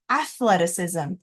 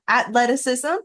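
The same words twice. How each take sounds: First: The middle sound is an unvoiced th sound. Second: The middle sound is a plain t sound. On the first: The speaker calls it right. "So we make that T H unvoiced sound" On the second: The speaker calls it wrong. "you might just hear the athleticism, um, but that's not how we pronounce it"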